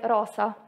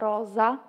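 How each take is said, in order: First: The middle s is voiceless, a plain hiss. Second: The middle s is voiced, buzzing like z. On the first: This is how it is said in the south. "al sud è più tipico dire rosa" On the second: This is how it is said in the north. "Qua al nord diciamo rosa, z, quindi in modo sonoro"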